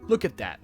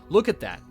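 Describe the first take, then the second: No difference in how they are said.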